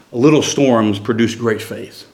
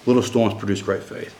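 First: Slow, weighty preaching line; slow, deliberate emphasis. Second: Said in the usual way. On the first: Shown as a demonstration. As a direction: lean on "little storms produce great faith" slowly, word by word.

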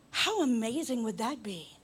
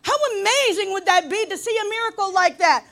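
First: Said in the usual way. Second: Loud, high exclamation of wonder; raised, impassioned pulpit cry; emphatic preaching. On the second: Real, not acted. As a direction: belt it out to the congregation. Repeats it at full force.

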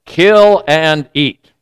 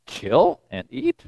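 First: Slow, measured command; commanding heavenly voice. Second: Soft, slow, rising in disbelief; puzzled questioning. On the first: A voice speaks to Peter in his dream, slow command. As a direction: deliver it slowly as a solemn order. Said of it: "the voice says to Peter". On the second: Peter puzzles over unclean animals, hushed incredulous question. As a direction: echo the order as a quiet question. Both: Retold or imitated.

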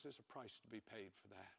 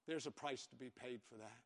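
First: Soft, grave warning to the church; hushed warning. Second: Said in the usual way. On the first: Acted. Preacher warning the congregation after a hard story, hushed. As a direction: drop the voice to a hush.

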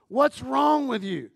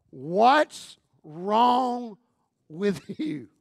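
First: A hint of a puzzled husband asking "What's wrong with you?". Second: Said in the usual way. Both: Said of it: "he wants to know".

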